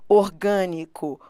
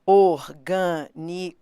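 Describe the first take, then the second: First: Said in the usual way. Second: "orgânico" slowly split as or-gâ-ni-co; syllable by syllable. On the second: Shown as a demonstration. Teacher showing students how to divide "orgânico", syllable by syllable. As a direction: pause between each syllable of "orgânico". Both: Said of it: "primeiro passo é separar as sílabas".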